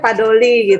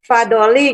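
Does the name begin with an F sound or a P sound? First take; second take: P sound; F sound. First: The name begins with a P sound. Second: The name begins with an F sound.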